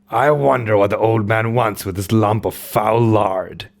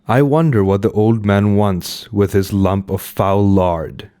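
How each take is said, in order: First: It is read in a put-on character voice. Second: It is read in the reader's ordinary voice. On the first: The speaker calls it right. "that voice was better" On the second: The speaker calls it wrong. "I did a normal voice"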